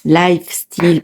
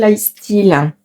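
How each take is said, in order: First: Lifestyle said carefully as "laïf-steel", f sounded; heavy French accent on Lifestyle; re-say Lifestyle in two clear French-accented parts; self-corrected English word. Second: Lifestyle slurred as "la-istyle", the f dropped; French-accented Lifestyle with a swallowed f; botched English word. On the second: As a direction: stumble over Lifestyle, losing its f. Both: Real, not acted. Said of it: "pardon, avec mon super accent anglais".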